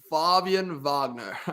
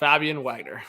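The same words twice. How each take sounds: First: The name is said with a Swedish pronunciation. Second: The name is said with a Canadian English pronunciation. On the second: "Canadian version of saying it"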